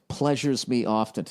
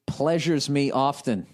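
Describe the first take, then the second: First: Mocking repeat. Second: Slow emphasis. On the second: Acted.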